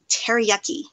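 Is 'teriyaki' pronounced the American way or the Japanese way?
American. The word has an American English pronunciation. This is how the father said it. "For him, it was teriyaki"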